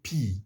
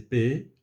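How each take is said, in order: First: The letter is said like English 'pee'. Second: The letter is said like French 'paix'. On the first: "mais en anglais on dit P" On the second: "on dit en français P"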